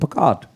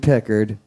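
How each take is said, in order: First: It is said in an Irish accent. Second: It is said in his plain accent.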